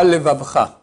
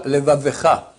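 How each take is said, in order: First: "levavcha" with v run straight into ch; shva swallowed. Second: "levavecha" with a short e after the second v; shva sounded. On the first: Rabbi showing the mistake, shva left silent. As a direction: say "levavcha" with no vowel after the second v. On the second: Rabbi giving the right reading, shva sounded. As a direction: say "levavecha", voicing e between v and ch. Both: Shown as a demonstration. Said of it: "pas levavcha".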